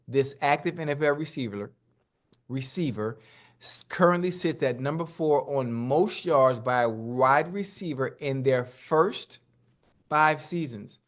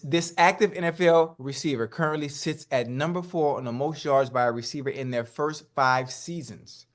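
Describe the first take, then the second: First: It is read more slowly. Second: It is read at a normal pace.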